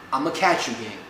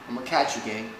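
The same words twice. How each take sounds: First: It is said with a raised, louder voice. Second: It is said at a normal, quieter volume. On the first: The goodbye is repeated so the listener hears it. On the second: The listener did not hear the goodbye.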